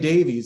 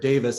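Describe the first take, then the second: First: The name ends with a long 'eez' sound. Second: The name ends with a short 'iss' sound. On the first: This is the usual American way of saying it. The speaker calls it wrong. "Americans always say" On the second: This is how the English say it. The speaker calls it right. "as I think they pronounce it"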